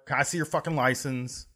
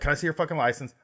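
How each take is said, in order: First: The question is asked in a harsh, aggressive tone. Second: The question is asked in a polite, respectful tone. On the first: The speaker calls it wrong. "He didn't say it like that" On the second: The speaker calls it right. "He's like really respectful and shit"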